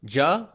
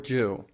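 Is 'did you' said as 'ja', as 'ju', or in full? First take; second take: as ja; as ju. First: The words blend into one syllable ending 'ah'. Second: The words blend into one syllable ending 'oo'. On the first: "That gets changed to ja or ju" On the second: "That gets changed to ja or ju"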